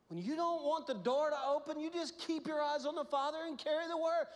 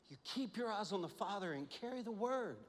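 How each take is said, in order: First: Loud, high, full-force preaching; preaching loudly. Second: Said in the usual way. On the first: Real, not acted. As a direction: drive the refrain home hard. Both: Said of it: "refrain repeated with rising force".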